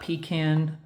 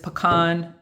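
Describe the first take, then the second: First: The word sounds like pee can. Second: The word does not sound like pee can. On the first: It names an outhouse. The speaker calls it wrong. "it's not pecan. That is, pecan is the shack in the back" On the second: It names the nut in the pie. The speaker calls it right. "it is pecan"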